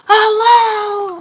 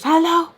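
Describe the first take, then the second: First: Very high, drawn-out yelled hello. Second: Louder, high-pitched phone hello; impatient hello. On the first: Mom getting no response on phone, yelled hello. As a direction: yell it long and high down the line. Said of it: "I'm not responding". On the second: Mom answering the phone, loud high hello. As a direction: call down the line, higher and louder. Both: Acted.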